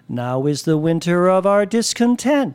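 The pitch moves from low up to high.

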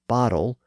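The middle T sounds like a soft D. "American bottle"

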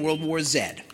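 The letter Z is said as Canadian 'zed'.

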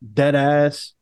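It sounds angry and authoritative.

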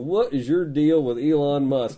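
It is said in a Southern accent.

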